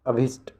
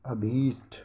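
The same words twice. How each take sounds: First: अभिष्ट with a short i; wrong short vowel. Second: Said in the usual way. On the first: Shown as a demonstration. Teacher showing the misspelling to students, short i in अभिष्ट. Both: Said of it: "अभिष्ट नहीं".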